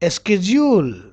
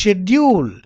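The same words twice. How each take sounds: First: It is said with an American pronunciation. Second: It is said with a British pronunciation. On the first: "but in American schedule" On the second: "in British schedule"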